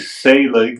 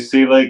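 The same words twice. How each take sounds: First: The first syllable sounds like the word 'say'. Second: The first syllable does not sound like 'say'. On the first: This is how the name's owner says it. "like S A Y" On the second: This is how some family members say the name. "Some of the family members say Selig"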